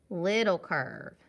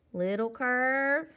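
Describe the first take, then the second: First: "little curve" dropping on "curve"; falling tune. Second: Slow "Little curve", "curve" held high and loud; rising tune. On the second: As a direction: stretch "curve" upward, unfinished. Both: Shown as a demonstration. Chanting along with drawn letter strokes.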